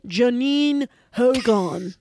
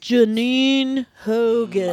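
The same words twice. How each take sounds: First: "Janine Hogan" dito devagar outra vez, em tom de triunfo; slow dramatic reveal. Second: "Janine Hogan" dito devagar, cada sílaba pesada; slow dramatic reveal. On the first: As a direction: drag out "Janine Hogan" like a boast. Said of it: "That's it, though". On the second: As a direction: lay out "Janine Hogan" slowly like a punchline. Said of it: "Mic drop". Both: Acted.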